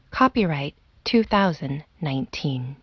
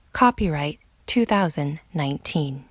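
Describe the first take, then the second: No difference in how they are said.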